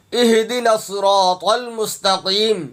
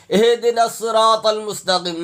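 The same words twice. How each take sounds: First: اہدنا as "ih-di-na", heavy sad in الصراط; correct reading. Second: اہدنا as "ay-hay-de-na", thin s in الصراط; wrong reading. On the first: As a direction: recite اہدنا الصراط المستقیم with full, thick consonants. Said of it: "صاد ہے، صاد". (اہدنا الصراط، موٹا صاد اور طا) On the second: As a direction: misread اہدنا الصراط المستقیم with open vowels, light consonants. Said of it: "نہیں". (اہدنا الصراط، صاد کی جگہ سین) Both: Shown as a demonstration.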